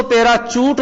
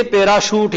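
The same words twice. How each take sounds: First: पैराशूट mispronounced as पैराचूट, with च for श; wrong ch sound. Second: Said in the usual way. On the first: Shown as a demonstration. Teacher warning students off a mistake, पैराचूट said with "ch". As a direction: say पैराचूट with a hard "ch" in the middle. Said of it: "पैराचूट न बोल करके". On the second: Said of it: "पैराशूट ही बोलना पड़ेगा".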